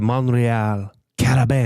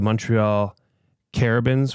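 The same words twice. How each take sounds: First: The name is said with a French accent. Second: The name is said with an English accent.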